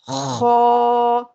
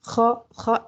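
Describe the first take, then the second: First: The vowel is drawn out, full and heavy. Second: The vowel is cut short, not drawn out. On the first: The speaker calls it right. "एक से दो सेकंड खींच के पढ़ेंगे; मुँह भर के पढ़ेंगे" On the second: The speaker calls it wrong. "हम ख ख ऐसे नहीं पढ़ेंगे"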